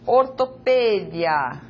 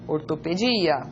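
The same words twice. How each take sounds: First: The stress falls on the syllable 'pe'. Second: The stress falls on the syllable 'di'.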